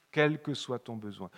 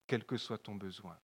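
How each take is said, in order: First: "Quel" stressed, voice back up to full; emphatic repeat. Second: Soft, dropped "quel que soit ton besoin"; "quel que soit ton besoin" said low and quietly; murmured almost to himself; hushed aside. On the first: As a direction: lean hard on "Quel" in "Quel que soit ton besoin". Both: Shown as a demonstration.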